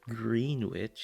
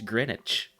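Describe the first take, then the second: First: The name is said the way it looks. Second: The name is said in a shortened form. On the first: The speaker calls it wrong. "no, man, no, it's not Greenwich" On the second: The speaker calls it right. "it's Greenwich"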